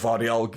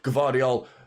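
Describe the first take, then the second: First: The name begins with a V sound. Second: The name begins with a G sound. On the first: "or not" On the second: "whether you pronounce the G or not"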